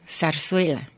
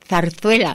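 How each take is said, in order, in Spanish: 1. Los sonidos de la z se pronuncian como s. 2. Los sonidos de la z se pronuncian como th. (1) "estoy diciendo zarzuela" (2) "cuando debería de decir zarzuela"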